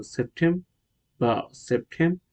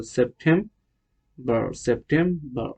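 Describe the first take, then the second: First: সেপ্টেম্বর with a silent final r; British pronunciation. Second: সেপ্টেম্বর with the final r sounded; American pronunciation. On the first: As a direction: say সেপ্টেম্বর as "sep-tem-bah". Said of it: "British হবে". (সেপ্টেম্বর, র ছাড়া British উচ্চারণে) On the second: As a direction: finish সেপ্টেম্বর on "berr". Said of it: "আমেরিকানরা কি বলে?". (সেপ্টেম্বর, র-সহ American উচ্চারণে) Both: Shown as a demonstration.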